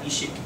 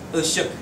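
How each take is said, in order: First: The vowels are made at the front, like ee. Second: The vowels are made far back in the throat. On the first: The speaker calls it wrong. "not ishik" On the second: The speaker calls it right. "you want to pronounce it far back in your throat"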